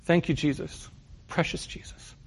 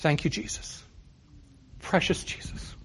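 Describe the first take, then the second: First: A hint of a Norwegian accent, fading to a whisper; lightly imitating a Norwegian grandmother's accent. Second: Soft whispered prayer, barely voiced; under her breath. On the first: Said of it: "In her thick Norwegian accent". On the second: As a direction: breathe it as a private murmured thanks. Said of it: "I would hear under her breath".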